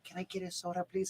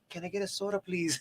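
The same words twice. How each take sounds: First: It is said quietly and timidly. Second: It is said loudly and confidently.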